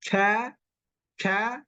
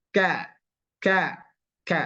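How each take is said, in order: First: Ka with the tongue in the middle of the mouth; wrong kaf. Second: Ka normal but pressed; plain kaf. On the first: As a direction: say ka with the tongue centred. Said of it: "salah dia". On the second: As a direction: say an ordinary ka and press it. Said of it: "Jadi biasa". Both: Shown as a demonstration.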